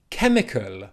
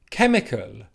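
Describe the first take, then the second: The two takes are said the same way.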